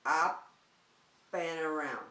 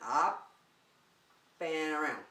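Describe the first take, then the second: No difference in how they are said.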